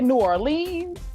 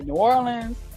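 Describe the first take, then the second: First: The city name is said the non-local way. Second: The city name is said the local way. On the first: "Some people say New Orleans" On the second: "The folks that are from New Orleans say New Orleans"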